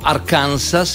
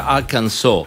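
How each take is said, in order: First: It is said with an Italian pronunciation. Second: It is said with an English pronunciation. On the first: "o diciamo Arkansas" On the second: "e invece sarebbe Arkansas"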